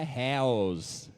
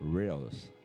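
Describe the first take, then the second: First: The first sound has no tongue pull. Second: The first sound has a tongue pull. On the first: The speaker calls it wrong. "não é Hells" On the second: The speaker calls it right. "tem ainda essa puxadinha na língua"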